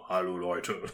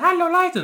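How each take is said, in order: First: It is said in a very deep voice. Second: It is said in a high, cute voice.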